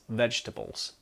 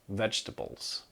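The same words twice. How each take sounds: First: The second E is dropped, giving three syllables. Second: The second E is dropped, giving three syllables.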